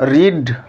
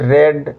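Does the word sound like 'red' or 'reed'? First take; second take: reed; red. First: The vowel is long, like in 'reed'. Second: The vowel is short, like in 'red'. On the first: It is the present form of the verb. "রিড প্রথমটা হবে" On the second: It is the past form of the verb. "Past ফর্মটা হবে যেটা দু নম্বর form, সেটি হবে রেড"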